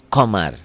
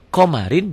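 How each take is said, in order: First: The word ends on a bare consonant. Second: The word ends with a vowel and n. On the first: The reading stops on the word. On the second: The reading continues past the word.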